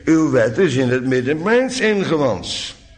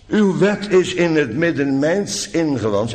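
First: The word mijns carries strong stress. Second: The word mijns carries no special stress.

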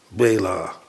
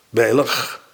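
First: The word ends in an open a vowel. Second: The word ends in a g sound. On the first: "En in ons Nederlands fungeert die als een A" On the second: "laat je er wat lucht bij vallen. Toch door het gat boven je tong en heb je een G"

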